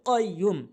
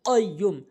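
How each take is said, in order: Both takes have the same delivery.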